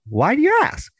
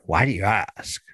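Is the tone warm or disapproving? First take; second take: warm; disapproving. First: It sounds warm and curious, celebrating the question. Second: It sounds disapproving or angry.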